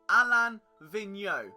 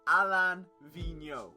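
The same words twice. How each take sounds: First: The first name is said the French way. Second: The first name is said the French way.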